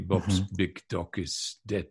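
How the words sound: The final consonants are devoiced. "Which is why Russian would say"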